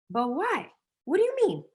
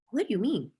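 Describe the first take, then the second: First: High, squeaky mock disbelief; incredulous. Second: Said in the usual way. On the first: To sellers scared of the word, high baffled disbelief.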